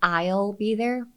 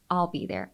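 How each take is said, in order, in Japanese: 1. すべての音が丁寧に、はっきり発音されています。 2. 単語同士がゆるくつながり、弱く崩れて発音されています。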